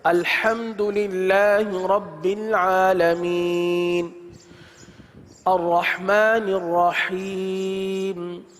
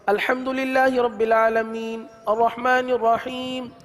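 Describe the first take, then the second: First: The voice stops and a breath is taken. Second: The voice stops between phrases without a breath.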